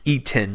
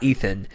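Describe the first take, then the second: First: The middle consonant is a plain t sound. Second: The middle consonant is a th sound. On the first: The speaker calls it right. "It's Ethan ... Like E T A N" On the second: The speaker calls it wrong. "not Ethan"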